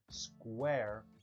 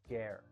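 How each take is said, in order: First: The word begins with a 'skw' sound. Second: The word begins with a plain 'sk' sound. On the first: The speaker calls it right. "instead of saying square" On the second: The speaker calls it wrong. "it's coming out as scare"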